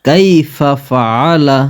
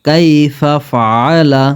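No difference in how they are said.

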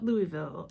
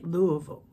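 First: It has one outsider pronunciation. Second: It has the locals' own pronunciation. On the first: This is how people from elsewhere say it. "People from other places call it Louisville or Louisville" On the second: This is how people from the city say it. "But we say Louisville"

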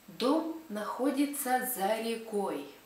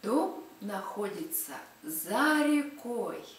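First: It is said at a normal speaking pace. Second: It is said very slowly.

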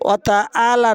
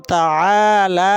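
First: The vowels are said short, without elongation. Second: Two vowels are drawn out long. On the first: The speaker calls it wrong. "অতাআলা না" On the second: The speaker calls it right. "অতাআলা দুইটা টান হবে"

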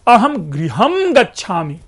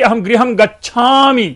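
First: The word गृहम carries the stress. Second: The word गच्छामि carries the stress. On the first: I am going home, not to a cinema or park. "दूसरे इसी को stress डालिए" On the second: I am leaving now and will not stay. "कि मैं भाई मैं अब नहीं रुकूंगा"

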